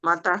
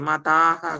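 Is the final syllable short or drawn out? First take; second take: short; drawn out. First: The word ends with a short final syllable. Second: The word ends with a long final syllable. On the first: The speaker calls it right. "మతః మతః అంతే" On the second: The speaker calls it wrong. "మతాహ కాదు"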